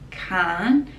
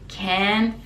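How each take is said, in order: First: It is said with an Australian accent. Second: It is said with an American accent. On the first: "Australia we say can't" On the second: "he says can, like American pronunciation"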